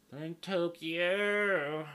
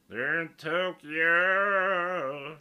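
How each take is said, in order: First: High, loud, drawn-out country twang. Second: Very loud, high country holler, Tokyo hugely drawn out; milk Tokyo in a huge country twang; exaggerated country voice. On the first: Acted. Podcaster joking about the Olympics, loud country drawl. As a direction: stretch Tokyo out in a country accent. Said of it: "you guys get my country voice". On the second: Podcaster repeating his Olympics bit, bigger slower country holler. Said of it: "You guys like my country voice?".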